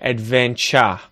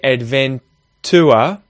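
First: The T is said as a 'ch' sound. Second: The T is said as a hard T sound. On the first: The speaker calls it right. "I would say adventure" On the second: The speaker calls it wrong. "I wouldn't say adventure"

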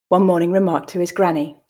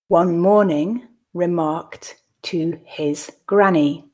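First: The line is read at a natural pace. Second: The line is read slowly and carefully. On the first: "I'll then read at a more natural pace" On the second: "the first time I'll read slowly"

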